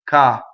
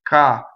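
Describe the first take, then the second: The two takes are said the same way.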